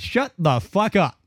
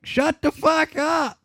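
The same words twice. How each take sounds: First: Slow, mock yell at the nurses; retold yell. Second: Slow, much higher full shout. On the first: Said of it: "it was loud in my room". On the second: Retold or imitated. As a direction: yell it to silence the whole room. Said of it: "screaming at the top of their lungs".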